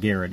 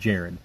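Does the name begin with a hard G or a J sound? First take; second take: hard G; J sound. First: The name begins with a hard G sound. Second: The name begins with a J sound. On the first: The speaker calls it wrong. "I mispronounced Jared's name. I was saying Garrett" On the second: The speaker calls it right. "His name is actually Jared. It's just spelled with a G"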